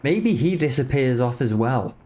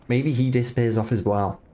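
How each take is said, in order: Both takes have the same delivery.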